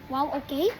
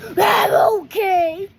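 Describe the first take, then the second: First: It is said in a confused tone. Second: It is said in an angry tone.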